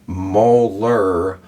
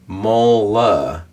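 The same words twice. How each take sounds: First: Molar said with a clear final r, mo-lar. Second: Mola said with the final r dropped, ending on uh. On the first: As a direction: pronounce molar fully, r sounded at the end. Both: Shown as a demonstration. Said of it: "So if we're going from".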